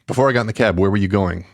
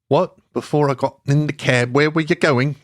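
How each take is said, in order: First: It is said in a non-British accent. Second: It is said in a British accent.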